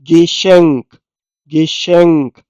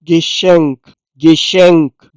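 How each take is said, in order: First: गेशेंक repeated after spelling; ge-shenk, sh sound; model pronunciation. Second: गेशेंक said as ge-shenk with sh; model pronunciation. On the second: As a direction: say गेशेंक clearly twice. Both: Shown as a demonstration. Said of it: "गेशेंक कहते हैं".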